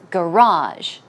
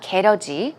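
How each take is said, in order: First: The word is said with English-style sounds. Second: The word is said with Korean-style sounds. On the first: The speaker calls it right. "it's garage" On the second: The speaker calls it wrong. "it's not 게러지"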